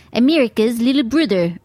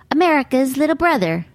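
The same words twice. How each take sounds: First: Mock Australian accent, vowels twisted; bad Australian accent. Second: Said in the usual way. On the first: Comic imitating the Australian bros' quote, bad Australian accent. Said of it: "That's not very good Australian accent". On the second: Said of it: "although they said it in their accent".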